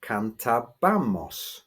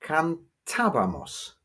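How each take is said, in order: First: Cantábamos mis-stressed as can-ta-BA-mos; cantábamos drawn out, stress landing on BA; stress on penultimate syllable. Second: Cantábamos stressed as can-TA-ba-mos; cantábamos drawn out, peak on TA then falling away; stress on accented syllable. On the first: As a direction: slowly punch the BA in cantábamos. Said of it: "have to stress the penultimate syllable". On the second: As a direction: slowly hit the TA in cantábamos, higher. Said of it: "is actually pronounced". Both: Shown as a demonstration.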